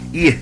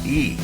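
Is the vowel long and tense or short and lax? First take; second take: short and lax; long and tense. First: The vowel is a short, lax i sound. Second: The vowel is a long, tense ee sound. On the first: The speaker calls it right. "se pronuncia I" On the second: The speaker calls it wrong. "No se pronuncia I"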